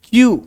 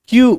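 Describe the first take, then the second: Both takes have the same delivery.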